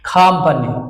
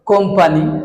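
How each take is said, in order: First: The first vowel is an a sound, with a breathy k. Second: The first vowel is an o sound. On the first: The speaker calls it right. "এটা হচ্ছে রেল উচ্চারণ খামপানি" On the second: The speaker calls it wrong. "আমরা যেটা বলি কোম্পানি"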